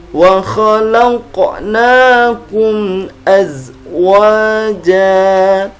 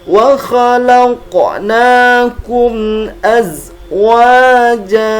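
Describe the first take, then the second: Both takes have the same delivery.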